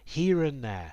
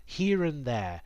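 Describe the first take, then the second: No difference in how they are said.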